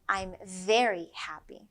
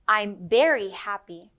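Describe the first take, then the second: First: The word very begins with a V sound. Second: The word very begins with a B sound. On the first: The speaker calls it right. "when you mean" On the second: The speaker calls it wrong. "A common mistake is substituting one sound for the other"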